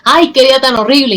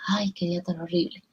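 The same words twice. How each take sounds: First: The phrase is shouted loudly. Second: The phrase is said in a lowered voice.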